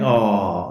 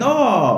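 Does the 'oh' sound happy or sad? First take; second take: sad; happy. First: It sounds sad and sympathetic. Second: It sounds happy and delighted.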